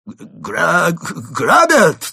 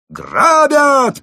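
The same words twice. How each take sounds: First: High, loud shout with a broken start; halting alarm call; stammered cry. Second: Extremely high, loud holler; gleeful, unbroken top-of-the-voice scream; roaring yell. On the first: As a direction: stumble into a yell for help. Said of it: "выдавил из себя Крот". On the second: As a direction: belt it out at full volume. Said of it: "проорал злоумышленник". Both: A narrator's reading.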